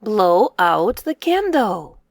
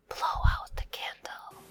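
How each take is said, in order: First: Said in the usual way. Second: Whispered repeat, no voice. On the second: Shown as a demonstration. Teacher whispering the phrase back for kids. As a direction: hush the line like blowing a candle.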